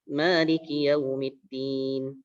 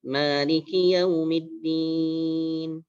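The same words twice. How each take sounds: First: The vowel before the end is held briefly. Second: The vowel before the end is drawn out. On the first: "Saya baca dengan dua harokat" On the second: "baca yang lebih panjang, empat harokat atau enam harokat"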